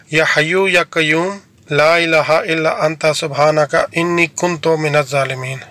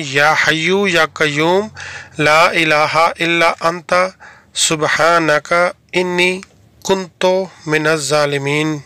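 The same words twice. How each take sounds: First: Slow, careful reading of یا حیو یا قیوم in a recited Arabic cadence; careful Arabic recitation. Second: Very slow, word by word, with pauses between انی, کنت and من الظالمین; slow word-by-word repeat. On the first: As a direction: recite یا حیو یا قیوم ... انی کنت من الظالمین slowly, every sound exact. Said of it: "یہ تلفظ آپ نے بالکل ذہن میں رکھنا ہے". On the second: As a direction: spell out یا حیو یا قیوم one word at a time so learners copy it. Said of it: "میں ریپیٹ کر رہا ہوں". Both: Shown as a demonstration.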